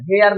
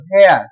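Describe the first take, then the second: First: वेयर with an "h" pushed in after the v; wrong pronunciation. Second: वेयर as "weyar", with no "h" sound; corrected pronunciation. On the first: Teacher tells students not to read वेयर so, mistaken aspirated pronunciation. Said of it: "तो वेयर नहीं पढ़ते हैं". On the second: Teacher models for students how वेयर is spoken, corrected "w" pronunciation. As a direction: say वेयर on a plain w onset. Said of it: "इसे बोलेंगे वेयर". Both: Shown as a demonstration.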